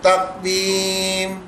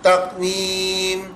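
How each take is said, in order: The two takes are said the same way.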